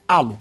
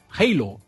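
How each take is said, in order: First: The word is said with Portuguese pronunciation. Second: The word is said with English pronunciation. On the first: The speaker calls it wrong. "se for puxar realmente para o português, seria halo" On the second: The speaker calls it right. "melhor pronunciar como o inglês"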